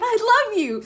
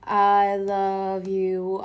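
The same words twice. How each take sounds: First: It is said with excitement. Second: It is said flat, in an even rhythm.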